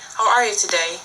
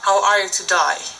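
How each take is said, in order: First: Today ends with an 'ay' vowel sound. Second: Today ends with an 'eye' vowel sound. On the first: "when you hear a British say" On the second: "an Australian would make it sound like"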